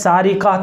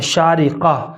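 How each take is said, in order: First: The name begins with an s sound. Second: The name begins with an sh sound. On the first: It means a female thief. The speaker calls it wrong. "अगर छोटे सीन के साथ पढ़ेंगे सारिका" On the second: It means bright or shining. The speaker calls it right. "सही और दुरुस्त तलफ़ुज़ है वो बड़े शीन के साथ है"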